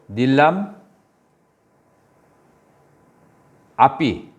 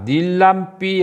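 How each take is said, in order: First: The two words are separate with the vowel pronounced. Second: The two words merge and the vowel is dropped. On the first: "이걸 분해하면은" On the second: "단어가 하나가 어, 빠졌다겠죠?"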